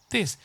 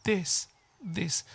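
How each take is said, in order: First: This said the wrong way, katakana-style with a hard s; wrong Japanese-style this. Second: This with a soft voiced th, tongue lightly touching the front teeth; correct th in this. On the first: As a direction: show the mistake in this to avoid. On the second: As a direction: model the right This after the wrong one. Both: Shown as a demonstration. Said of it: "thisと言わないでください".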